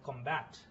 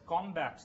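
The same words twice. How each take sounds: First: The stress is on the second syllable. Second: The stress is on the first syllable. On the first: It is used as a verb. "the verb" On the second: It is used as a noun. "the noun"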